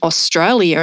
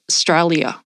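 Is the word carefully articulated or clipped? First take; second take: careful; clipped. First: Every syllable of the word is clearly articulated. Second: The word is clipped, with syllables slurred together. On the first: The speaker calls it right. "saying words right, like even Australia" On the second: The speaker calls it wrong. "instead of Australia"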